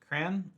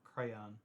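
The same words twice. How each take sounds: First: The word is said as one syllable. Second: The word is said as two syllables. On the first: "Is it one syllable" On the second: "or two?"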